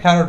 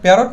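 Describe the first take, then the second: First: The first p is said with a heavy puff. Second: The first p is said plain, without a puff. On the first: The speaker calls it right. "ফ্যারট বলবো" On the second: The speaker calls it wrong. "প্যারট না বলে"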